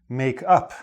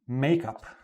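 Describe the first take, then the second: First: The stress falls on the word up. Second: The stress falls on the word make. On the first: It is the phrasal verb. "The stress is on the up" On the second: It is the noun, used like an adjective. "The stress is on the make"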